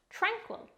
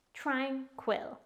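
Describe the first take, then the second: First: Said in the usual way. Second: "Tranquil" in two separate beats, tran, quil; careful, divided "Tranquil" for learners; syllable by syllable. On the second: Shown as a demonstration. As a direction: break "Tranquil" before quil. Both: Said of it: "It's pronounced".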